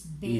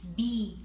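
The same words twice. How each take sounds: First: The letter name sounds like French bé. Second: The letter name sounds like English bee. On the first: "in your language it's B" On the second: "this one in English it's B"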